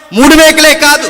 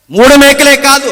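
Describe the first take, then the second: First: మేకలే hit hard and high, మూడు lighter; stress on మేకలే. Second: మూడు hit hard and high, మేకలే lighter; stress on మూడు. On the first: Preacher to the crowd, stressing మేకలే. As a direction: punch the word మేకలే. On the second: Preacher to the crowd, stressing మూడు. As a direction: punch the number మూడు. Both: Acted. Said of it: "repeated with shifted stress".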